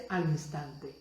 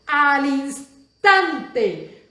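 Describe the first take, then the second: First: "al instante" said lower and much softer; "al instante" murmured low and quietly; softly spoken. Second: "Al instante" drawn out very slowly, high and loud; "Al instante" hammered out slowly and loudly; emphatic stress. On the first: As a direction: drop "al instante" almost to an aside. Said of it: "la próxima palabra que tú vas a subrayar es". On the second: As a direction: stretch "Al instante" as the key word. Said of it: "Vamos a subrayar esa palabra". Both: Shown as a demonstration.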